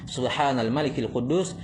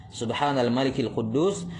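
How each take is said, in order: The two takes are said the same way.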